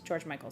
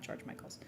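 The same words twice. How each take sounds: First: George Michael said with no final s; correct name. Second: George Michael's whispered with an added s; wrong name. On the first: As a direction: George Michael, ending on a plain l. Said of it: "not [name]'s". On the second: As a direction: George Michael's, unvoiced, with a final s. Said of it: "sorry, not [name]'s". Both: Shown as a demonstration.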